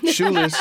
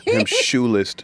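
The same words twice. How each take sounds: First: Shoeless squeaked very high; squeaky emphasis. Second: Said in the usual way. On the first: Real, not acted. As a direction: pitch shoeless way up in disbelief. Repeats shoeless for comic effect.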